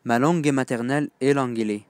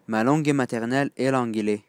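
No difference in how they are said.

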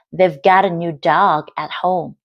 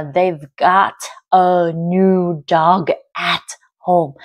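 First: "got a" flapped into "godda"; natural linked reading with "got a" blended; connected speech. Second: Slow, every word fully sounded; over-careful, drawn-out reading; unnatural word-by-word. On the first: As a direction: link it up, "got a" as one word. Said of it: "nói nhanh thì sẽ có hiện tượng nối âm". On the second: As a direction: separate each word, no linking at all. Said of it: "người ta sẽ không đọc cho mình là". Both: Shown as a demonstration.

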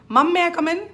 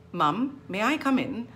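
First: MUM MAY merged into one M, high and loud; words run together. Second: MUM, then a break before MAY; consonants separated. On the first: Teacher showing the wrong way, consonants merged. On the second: Teacher modelling both consonants, separated. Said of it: "separate those consonants". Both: Shown as a demonstration.

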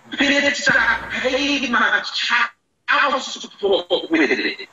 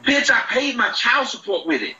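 First: Slowed-down replay of the line. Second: Said in the usual way. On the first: Real, not acted. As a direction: drag the line out word by word as if played at half speed. Replayed clip, then slowed.

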